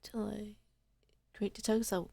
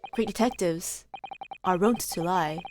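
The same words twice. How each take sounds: First: Toneless breathy whisper of the line. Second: Lower, soft knowing detective line; Holmes read. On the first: Shown as a demonstration. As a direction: breathe it like a secret. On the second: Acted. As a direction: say it like a sly maxim. Holmes line then whispered repeat.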